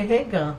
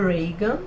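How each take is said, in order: First: The name is said with a Portuguese-style pronunciation. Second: The name is said with an American pronunciation. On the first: The speaker calls it wrong. "fica menos feio do que Regan" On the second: The speaker calls it right. "eu decidi falar com a pronúncia mais americana"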